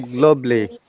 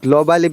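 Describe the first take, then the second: First: The vowel before the final ly is dropped. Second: The vowel before the final ly is pronounced. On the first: The speaker calls it right. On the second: The speaker calls it wrong.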